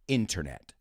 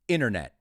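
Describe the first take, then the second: First: The t after the n is pronounced. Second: The t after the n is dropped.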